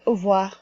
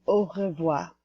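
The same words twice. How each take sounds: First: It is said fast and reduced. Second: It is said slowly and fully.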